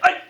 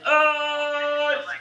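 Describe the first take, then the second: First: The yell is short and sharp. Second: The yell is drawn out long.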